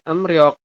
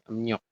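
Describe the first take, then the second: First: The second syllable begins with an R sound. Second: The second syllable begins with an N sound. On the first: The speaker calls it wrong. "bacanya bukan emriok" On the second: The speaker calls it right. "iya, emnyok. Seperti ini ya"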